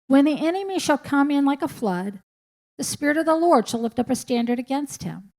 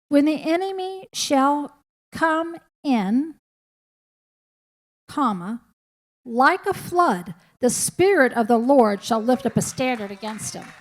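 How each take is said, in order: First: There is no pause after "come in". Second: There is a pause after "come in".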